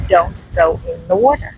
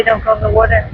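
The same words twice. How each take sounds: First: "don't go in the water" with each word set apart; emphatic warning. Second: Said in the usual way. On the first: Real, not acted. Vlogger warning viewers off rough surf, emphatic "don't go in the water".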